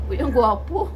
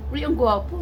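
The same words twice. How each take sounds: First: Laughing. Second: Said in the usual way. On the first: Real, not acted. Laughing while praising cat.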